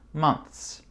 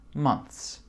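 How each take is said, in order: Both takes have the same delivery.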